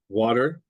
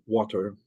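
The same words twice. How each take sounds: First: The middle T is a quick flap. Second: The middle T is a full voiceless T. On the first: "That's what they call um, a flap" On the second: "That's a normal T in the middle, the voiceless"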